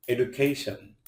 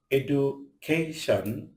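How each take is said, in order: First: Said in the usual way. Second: education slowly in chunks, এডু, কে, শন, ending on a rise; split into syllables. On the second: Shown as a demonstration. Teacher showing learners what a syllable is, split into syllables. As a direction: break education up syllable by syllable, last one rising. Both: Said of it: "যতটুকু অংশ একসাথে উচ্চারণ করা".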